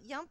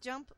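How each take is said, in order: First: It starts with a y sound, non-American accent. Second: It starts with a j sound, American accent.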